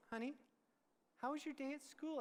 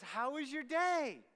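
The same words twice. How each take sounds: First: Imitating gentle mom. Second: Higher, louder, drawn-out mom greeting; imitating cheery mom. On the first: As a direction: ask tenderly, as mom to a sulking child. Mom gently asks the sullen son. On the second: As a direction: sing out the question as an eager mom. Mom's dreaded after-school question, voiced.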